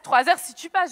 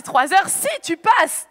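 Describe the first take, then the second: First: Said in the usual way. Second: Stretched out slow, each word weighed; slow disbelief. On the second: Retold or imitated. Repeating the German man's words to the audience, slow and stunned. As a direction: drag it out in shocked disbelief. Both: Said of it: "J'ai dit".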